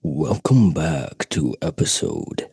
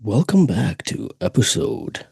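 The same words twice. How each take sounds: First: Lower, slow announcer voice; deep slow voice. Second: Put-on voice. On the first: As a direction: drop it low and drag it. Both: Shown as a demonstration. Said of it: "Different voices".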